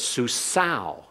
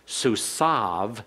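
First: The word ends in a vowel sound. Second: The word ends in a v sound. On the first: This is the classical pronunciation. "So it's susau in classical Hebrew" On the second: This is the modern pronunciation. "susav in modern Hebrew"

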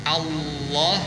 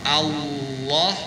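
Both takes have the same delivery.

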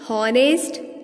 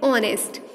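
First: The word begins with a pronounced h sound. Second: The word begins with no h sound. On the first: The speaker calls it wrong. "this is a wrong pronunciation of this word" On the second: The speaker calls it right. "H remains silent here"

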